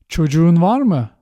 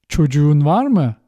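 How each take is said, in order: Both takes have the same delivery.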